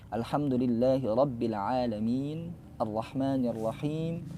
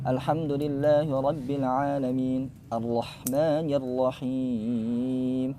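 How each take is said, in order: First: The final long vowels are held equally long. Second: The final long vowels are held unequally long. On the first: The reciter keeps one length throughout. The speaker calls it right. "kita di awal baca dua, ya udah dua" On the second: The reciter changes length partway through. The speaker calls it wrong. "Jangan sampai"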